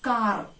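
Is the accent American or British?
American. American accent, with the final R sounded. "But in American English, it is pronounced as car"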